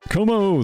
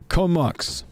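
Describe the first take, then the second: First: The name ends on a vowel sound. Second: The name ends with a k-s sound. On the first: The speaker calls it wrong. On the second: The speaker calls it right.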